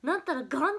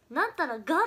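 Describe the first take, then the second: First: なんたらがん closing on a loud, nasal ん after が; なんたらがん with final が closed by ん; Okayama がん ending. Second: なんたらが ending on a short loud が, no ん; なんたらが with open, punched final が; Okayama が ending. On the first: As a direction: punch がん at the end of なんたらがん. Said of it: "っていうのは知らなくって". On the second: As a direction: hit the bare が at the end of なんたらが. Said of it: "っていうのは岡山弁だって知ってたんだけど". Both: Shown as a demonstration.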